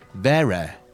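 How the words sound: It ends with a Mancunian open vowel.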